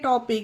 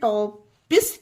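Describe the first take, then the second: First: The word ends with a K sound. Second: The word ends with an S sound. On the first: The speaker calls it right. "टॉपिक में क्यों पढ़ेंगे टॉपिक" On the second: The speaker calls it wrong. "इसे टॉपिस क्यों नहीं पढ़ेंगे"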